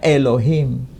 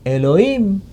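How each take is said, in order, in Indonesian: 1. Kata Elohim diucapkan dengan lafal Ibrani Masora. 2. Kata Elohim diucapkan dengan lafal Ibrani Samaria. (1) "Masora, itu kan melafalkan Elohim. Dilafalkannya Elohim" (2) "Taurat versi Samaria, tidak dilafalkan Elohim, Elohim"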